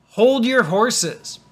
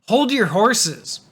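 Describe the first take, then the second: The two takes are said the same way.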